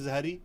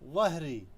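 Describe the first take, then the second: First: The first consonant is a plain z sound. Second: The first consonant is an emphatic interdental sound. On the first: Listeners will not understand it. The speaker calls it wrong. "जहरी वो नहीं समझेंगे" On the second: This is the proper pronunciation. The speaker calls it right. "try to learn the correct pronunciation which is ظهري"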